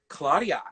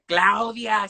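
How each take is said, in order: First: The name is said with an American accent. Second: The name is said with a Spanish accent. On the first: "So I said Claudia" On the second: "they were like, Claudia"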